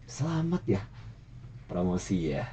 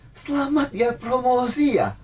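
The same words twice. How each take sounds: First: The congratulation sounds snide and sarcastic. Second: The congratulation sounds warm and positive. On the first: The praise is not meant warmly. "Yang pertama itu nyinyir ya" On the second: The praise is meant warmly. "Yang kedua itu lebih positif"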